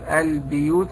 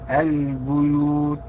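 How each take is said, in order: First: The vowel after the b is i. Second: The vowel after the b is u. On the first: This follows the Qalun reading. "هذا قالون ... بكسر كلمة البيوت" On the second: This follows the Hafs and Warsh readings. "حفص ورش ... فتضم كلمة البيوت"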